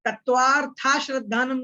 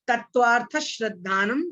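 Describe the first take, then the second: First: The first word ends with an added long vowel. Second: The first word ends without an added long vowel. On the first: The speaker calls it wrong. "तत्वार्था श्रद्धानम नहीं बोलना है" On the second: The speaker calls it right. "बोलना सही है"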